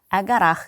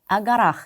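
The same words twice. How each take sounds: First: The preposition sounds like 'a', joined to noun. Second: The preposition sounds like 'a', joined to noun.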